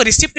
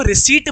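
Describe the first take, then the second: First: रिसिप्ट with the P sounded; short i and a sounded P in रिसिप्ट; wrong pronunciation. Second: रिसीट with a silent P; long-ee रिसीट, no P sound; correct pronunciation. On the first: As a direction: say रिसिप्ट with an audible "pt" ending. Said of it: "इसको रिसिप्ट नहीं पढ़ते". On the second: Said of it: "इसको रिसीट पढ़ते हैं". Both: Shown as a demonstration.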